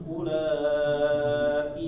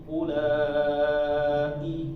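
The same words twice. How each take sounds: The two takes are said the same way.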